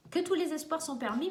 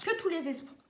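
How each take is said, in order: First: Said in the usual way. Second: Hiccup breaks the words. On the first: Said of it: "oh, pardonnez-moi". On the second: Real, not acted. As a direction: cut off by a hiccup. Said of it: "j'ai le hoquet".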